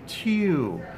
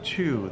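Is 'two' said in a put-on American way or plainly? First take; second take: put-on American; plain. First: It is said in a put-on American way. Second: It is said in a plain, ordinary way.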